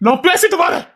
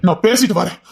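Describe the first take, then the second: First: High, mocking repeat of நான் பேசிட்டு வரேன்; mocking echo. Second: Said in the usual way. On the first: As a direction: parrot her words back at her, teasing.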